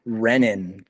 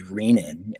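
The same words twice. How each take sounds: First: "Renin" as REN-in, slowly; slow, short e in "Renin"; short-e pronunciation. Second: "Renin" as REE-nin, slowly; slow, long ee in "Renin"; long-e pronunciation. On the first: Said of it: "when people say". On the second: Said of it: "pronunciation of the word". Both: Shown as a demonstration.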